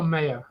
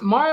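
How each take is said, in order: First: "Maya" with first syllable like "may". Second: "Maya" with first syllable like "my". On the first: Host checking a student's name, "Maya" said MAY-uh. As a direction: say "Maya" as MAY-uh, rhyming with player. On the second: Host checking a student's name, "Maya" said MY-uh. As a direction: say "Maya" as MY-uh, rhyming with fire. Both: Shown as a demonstration. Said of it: "Is it Maya or Maya?".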